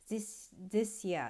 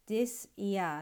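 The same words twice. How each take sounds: First: The two words blend together into one sound. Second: The two words are said separately, katakana-style. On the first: "ちょっとつながってリンキングに音が変わるとですね" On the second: "カタカナで読むとthis year"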